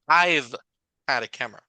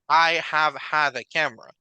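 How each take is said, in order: First: 'I have' is shortened to one syllable. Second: 'I have' is said as two full words. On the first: The speaker calls it right. "They normally use the contraction" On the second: The speaker calls it wrong. "We rarely say"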